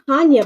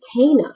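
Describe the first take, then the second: First: A 'y' glide follows the 'n' sound. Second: No 'y' glide follows the 'n' sound. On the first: The speaker calls it wrong. "I was saying her name was Tanya" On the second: The speaker calls it right. "but her name is Tana"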